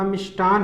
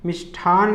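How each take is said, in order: First: मिष्टान with unaspirated "ta"; no puff on the t in मिष्टान; correct मिष्टान. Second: मिष्ठान with aspirated "tha"; wrong मिष्ठान. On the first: Teacher giving correct form, मिष्टान as "mishtan". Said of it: "होता है". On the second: Teacher rejecting the error, मिष्ठान as "mishthan". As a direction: puff the t in मिष्ठान. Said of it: "नहीं होता". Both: Shown as a demonstration.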